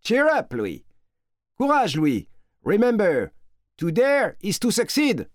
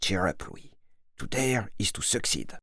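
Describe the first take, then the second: First: High-pitched shouted encouragement; cheering them on in a high, carrying voice; calling out. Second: Soft, low-key murmur to oneself; hushed private pep talk; inner repetition. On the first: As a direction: call out a rousing send-off to someone far away. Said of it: "en criant". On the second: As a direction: repeat it quietly under your breath. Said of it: "se répète intérieurement". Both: A narrator's reading.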